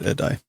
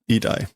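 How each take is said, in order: First: The first vowel sounds like 'eh'. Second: The first vowel sounds like 'ee'. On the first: The speaker calls it wrong. "not edai" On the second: The speaker calls it right. "idai, idai"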